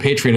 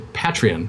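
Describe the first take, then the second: First: The first part sounds like the word 'patron'. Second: The first part does not sound like 'patron'. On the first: The speaker calls it right. "that's why I pronounce it Patreon is because it reminds me of the word patron" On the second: The speaker calls it wrong. "I don't understand why people say Patreon because like it's not a patron"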